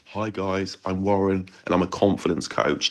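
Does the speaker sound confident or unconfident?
unconfident. It sounds hesitant and lacking confidence.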